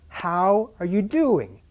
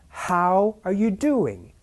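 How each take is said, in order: No difference in how they are said.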